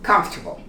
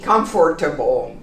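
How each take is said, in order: First: A middle syllable disappears, squeezing the word together. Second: Every syllable is pronounced fully and separately. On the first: The speaker calls it right. "This really disappears when we pronounce comfortable" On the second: The speaker calls it wrong. "We don't say comfortable"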